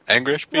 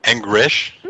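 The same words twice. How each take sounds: First: Very high pleading squeak; squeaky high voice. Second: Said in the usual way. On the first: Acted. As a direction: pitch way up on please. Squeaky repeat of English.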